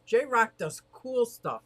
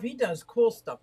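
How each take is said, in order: First: "J-Rock" said slowly and set apart, the name held out; slow title read, leaning on "J-Rock"; stress on J-Rock. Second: Said in the usual way. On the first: Shown as a demonstration. Streamer tries out a new channel title for viewers, slow and deliberate. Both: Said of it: "Gotta change your title".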